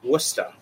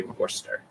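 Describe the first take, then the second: First: "Worcester" said as WUSS-tuh, r dropped, in a Boston accent; Boston accent, local and casual. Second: "Worcester" said as WOR-ster in a mock proper English accent, a bit softer; mock proper English accent, lightly done. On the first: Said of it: "That's how you'd say it with a Boston accent". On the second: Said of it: "in its proper English accent". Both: Shown as a demonstration.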